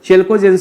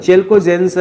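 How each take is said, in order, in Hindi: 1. पहला स्वर आगे वाला 'eh' जैसा है। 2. पहला स्वर आगे वाला 'eh' जैसा है।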